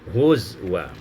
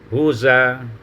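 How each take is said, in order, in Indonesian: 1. Bunyi w terdengar di tengah. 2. Tidak ada bunyi w di tengah. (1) "hamzah itu dengan waw dan disukunkan zai menjadi huzwa" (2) "menakalkan hamzah kepada uh, harakat hamzah pada huruf sukun sebelumnya menjadi huza"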